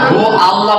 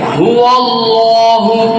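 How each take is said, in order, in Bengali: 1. 'Hu' ও 'Allah' 'w' যোগ ছাড়া বলা হয়। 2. একটি গোলাকার 'w' ধ্বনি 'hu'-কে 'Allah'-এর সাথে যুক্ত করে। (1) "হু আল্লাহ কোনো সময় হবে না" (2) "ওয়া ওয়া ঠোঁট গোলই হবে"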